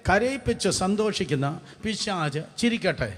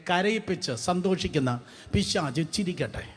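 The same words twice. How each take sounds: The two takes are said the same way.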